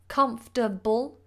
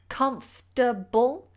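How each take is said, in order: First: The word is said with three syllables. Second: The word is said with three syllables.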